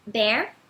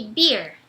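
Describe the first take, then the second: First: Slow "bear" with an open, accented É; "bear" with an EH vowel, not EE. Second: "beer" with an EE glide, falling; "beer" with EE, not EH; iê vowel. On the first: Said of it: "bear tem esse som aberto". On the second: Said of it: "beer é como se fosse iê". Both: Shown as a demonstration.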